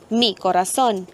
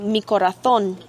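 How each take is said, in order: First: It is said with a Belizean Spanish accent. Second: It is said with a Castilian Spanish accent.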